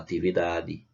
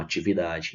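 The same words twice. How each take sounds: First: The t and d stay plain and hard. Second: The t and d become hushed 'ch' and 'j'. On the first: This is how people in the interior speak. "Lá a gente fala" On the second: This is how people in Fortaleza speak. "Aqui em Fortaleza as pessoas falam"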